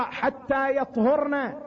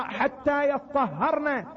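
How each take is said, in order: First: يطهرنا as yat-hurna, single consonants; light verb reading. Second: يطهرنا as yat-tah-harna, doubled consonants; doubled verb reading. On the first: Preacher showing one Quran reading, يطهرنا said yat-hurna, slowly. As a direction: say يطهرنا with a still T and short u: yat-hur-na. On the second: Preacher showing another Quran reading, يطهرنا said yattahharna, slowly. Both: Shown as a demonstration. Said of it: "كانت قراءات متعددة".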